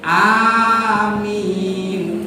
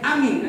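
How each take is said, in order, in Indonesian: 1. Kedua vokal panjang. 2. Kedua vokal pendek. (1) "A panjang, min pan" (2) "A pendek, min pendek"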